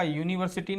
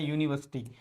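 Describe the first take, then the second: First: "यूनिवर्सिटी" with all syllables, yu-ni-var-si-tee; "यूनिवर्सिटी" said in full as var-si-tee; wrong pronunciation. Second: "यूनिवर्सिटी" shortened to yu-ni-vas-tee; "यूनिवर्सिटी" ending in a tight -vas-tee; correct pronunciation. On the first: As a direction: sound the r and si in "यूनिवर्सिटी". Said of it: "इसका यूनिवर्सिटी नहीं होता". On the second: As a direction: drop the r and middle vowel in "यूनिवर्सिटी". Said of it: "इसका pronunciation होता है यूनिवर्सिटी". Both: Shown as a demonstration.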